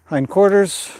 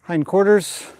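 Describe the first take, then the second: No difference in how they are said.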